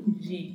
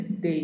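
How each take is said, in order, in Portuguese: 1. A consoante é um som suave, parecido com dj. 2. A consoante é um som de d simples e forte. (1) "e não de D, como nós falamos no português" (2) "que é pronunciado com este som mesmo, de D"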